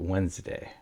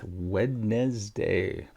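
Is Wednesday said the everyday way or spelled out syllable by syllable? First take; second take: everyday; spelled out. First: It is said the usual everyday way. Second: Each written syllable is sounded out separately.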